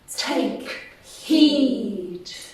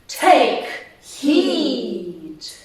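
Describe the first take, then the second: First: It is said at a moderate volume. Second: It is said much more loudly.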